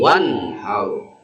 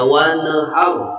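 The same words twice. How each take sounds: First: The n sound is clear and distinct. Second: The n sound is blurred and unclear. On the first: The speaker calls it right. "dibacanya harus terang dan jelas pula" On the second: The speaker calls it wrong. "Jangan dibacanya wanhar"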